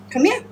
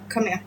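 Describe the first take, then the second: First: High, rising call to a pet; high coaxing. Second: Low-key, very soft call to a pet; soft coaxing. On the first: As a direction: coax it over with a lifted voice. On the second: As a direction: coax it over under your voice. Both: Real, not acted.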